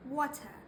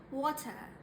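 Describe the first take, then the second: No difference in how they are said.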